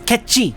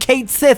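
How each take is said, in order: First: The name sounds like 'Ketchi'. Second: The name sounds like 'Kate Sith'. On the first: The speaker calls it right. "It's Ketchi" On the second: The speaker calls it wrong. "Stop saying Kate Sith"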